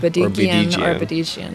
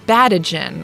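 First: An 'ee' sound is heard before the ending. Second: The 'ee' sound before the ending is dropped. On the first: The speaker calls it right. "The correct pronunciation" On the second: The speaker calls it wrong. "a lot of people miss that second I and they like pronounce my name like"

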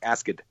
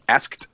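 First: An extra schwa syllable is added. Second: It is said as one syllable. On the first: "I'll add a schwa sound to" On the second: "instead of"

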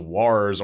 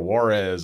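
First: It is said like the word 'wars'. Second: It is said like the city 'Juarez'. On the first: "the people that would mispronounce it as Wars" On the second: "or Juarez, it's like, it's not in Mexico"

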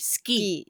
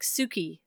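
First: The vowel after the s is dropped. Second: The vowel after the s is fully pronounced. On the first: The speaker calls it right. "it'll say ski" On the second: The speaker calls it wrong. "rather than saying like Suki"

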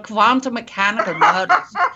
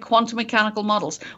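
First: It is said with a put-on German accent. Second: It is said in the speaker's ordinary accent.

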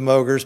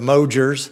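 First: The G is hard, like in go. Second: The G is soft, like a J sound. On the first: The speaker calls it wrong. "the common mispronunciation of my last name" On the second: The speaker calls it right. "It is a soft G"

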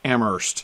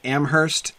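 First: The H sound is silent in the word. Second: The H sound is pronounced in the word. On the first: This is how the town in Massachusetts is said. "in Massachusetts they don't pronounce the H" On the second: This is how the town in New Hampshire is said. "I grew up in Amherst with an H, New Hampshire. So I always pronounce it that way"

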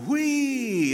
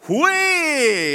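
First: It is said quietly. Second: It is said very loudly.

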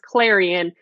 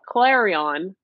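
First: Clarion is said with the usual local pronunciation. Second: Clarion is said with an outsider's mispronunciation. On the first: The speaker calls it right. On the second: The speaker calls it wrong.

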